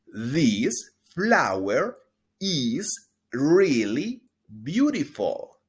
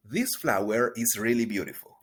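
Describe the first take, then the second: First: Slow, loud, clear teacher model; drawn-out pronunciation model; slow model sentence. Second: Said in the usual way. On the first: Shown as a demonstration. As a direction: stretch every word for repeating. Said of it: "Repita después de mí". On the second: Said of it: "Una vez más".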